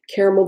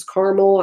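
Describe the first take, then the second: First: Caramel with the middle vowel kept; caramel as CARE-uh-mel. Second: Caramel with the middle vowel dropped; caramel as CAR-mel. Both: Shown as a demonstration. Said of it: "I always forget who says what".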